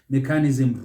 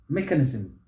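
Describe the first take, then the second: First: The stress is not on the first syllable. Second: The stress is on the first syllable. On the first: The speaker calls it wrong. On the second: The speaker calls it right. "Stress is on that first syllable"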